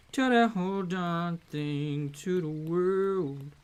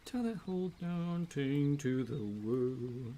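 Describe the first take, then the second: First: Louder, punchier line; louder take. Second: Said in the usual way. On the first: Shown as a demonstration. Streamer repeating the line with more force. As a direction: push it out with more energy. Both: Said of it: "repeated louder".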